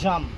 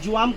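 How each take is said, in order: First: It is said in a plain, ordinary way. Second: It is said in an affected, drawn-out way. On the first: This is how ordinary Bengali speakers say it. The speaker calls it right. "আমরা জাম বলি" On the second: This is how trendy bloggers say it. The speaker calls it wrong. "আমাদের latest blogger আপুরা এটাকে কি বলবে জানেন? এটা হলো জোয়াম কালার"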